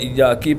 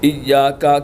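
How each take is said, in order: First: The word ends with an 'i' vowel. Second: The word ends with an 'a' vowel.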